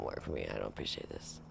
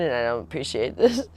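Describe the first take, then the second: First: Much softer, lower muttered "I don't appreciate this"; muttered repeat. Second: Said in the usual way. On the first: Retold or imitated. Girlfriend repeating her complaint to trainer boyfriend, soft low mutter. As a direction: grumble the line under breath. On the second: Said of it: "I don't like this".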